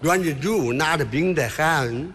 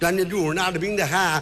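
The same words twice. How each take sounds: First: It is said plainly in ordinary Beijing speech. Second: It is said fast with a foreign-sounding accent.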